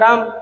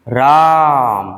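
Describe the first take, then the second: First: The name is said short, at normal volume. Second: The name is called out with a drawn-out vowel. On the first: The person is sitting nearby. "बगल में बैठा तो कहेगा राम" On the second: The person is far away and being called. "जब दूर रहेगा तो क्या बोलिएगा?"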